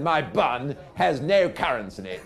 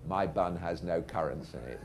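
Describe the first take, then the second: First: High, loud, insistent repeat; old captain. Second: Operator's measured dictation with an American touch; American accent. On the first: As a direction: proclaim it louder for someone who missed it. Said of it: "old captain said". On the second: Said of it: "but in an American accent". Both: Retold or imitated.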